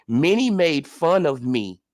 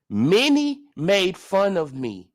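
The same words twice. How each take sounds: First: Low, slow, mock-humble voice; mocking impression of Ugas. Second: "Many made fun of me" stretched slowly, louder, mockingly; drawn-out mocking. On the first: Host mocks boxer's statement in low, slow, mock-humble voice. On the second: Host mocks boxer, dragging "Many" out slowly and louder. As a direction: lean on "Many" slowly with mock pity. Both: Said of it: "let's read it again".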